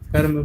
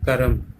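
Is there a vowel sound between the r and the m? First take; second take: no; yes. First: The r joins straight onto m, no vowel. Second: A full vowel is said between r and m. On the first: The speaker calls it right. "कर्म कर्म बोलते हैं" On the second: The speaker calls it wrong. "Not करम। करम नहीं बोला जाता।"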